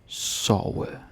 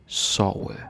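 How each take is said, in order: No difference in how they are said.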